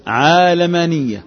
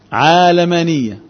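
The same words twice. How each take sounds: First: عالمانية said slowly with a long open first a, ʕaa-lamaniyya; نطق عالمانية بفتح العين ببطء; pronounced with open a. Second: عالمانية repeated slowly, first syllable ʕaa open and long; نطق عالمانية بفتح العين; pronounced with open a. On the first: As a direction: stretch عالمانية out, opening the first syllable. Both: Shown as a demonstration. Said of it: "فلما أجي أنطقها بقى أقول إيه".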